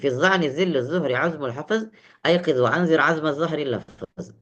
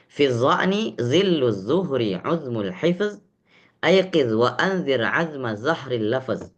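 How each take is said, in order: First: The verse is recited very fast. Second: The verse is recited slowly.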